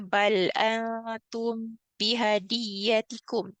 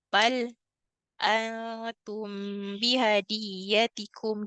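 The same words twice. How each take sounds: First: It is read smoothly with no pause after bal. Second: It is read with a brief pause after bal. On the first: "kita tak saktah, kita tak pause kat sini" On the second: "dia akan pause kat situ"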